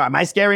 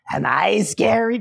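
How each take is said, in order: First: Said in the usual way. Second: Slow creepy taunt. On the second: Retold or imitated. Evil woman taunting the boy.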